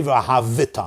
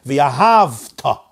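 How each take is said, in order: First: "V'yahavita" with an extra vi syllable; V'yahavita, low, vowel after the v; moving shva, mistaken. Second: "V'yahavta" stretched on hav, then ta; V'yahavta, very slow and closed; silent shva. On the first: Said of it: "I'm not supposed to say". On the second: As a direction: draw out V'yahavta with no vowel after v. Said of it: "I'm supposed to say". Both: Shown as a demonstration.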